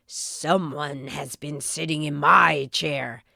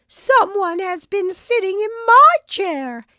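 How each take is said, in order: First: Low, gruff papa bear voice; growling Father Bear. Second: High, loud howl of a mother bear. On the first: Father Bear growls about his chair. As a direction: growl it out deep like a big bear. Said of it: "growled Father Bear". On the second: Mother Bear howls about her chair. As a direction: let it rise into a loud howl. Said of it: "howled Mother Bear". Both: A narrator's reading.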